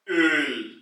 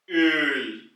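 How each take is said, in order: First: The vowel is a rounded front ö. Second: The same.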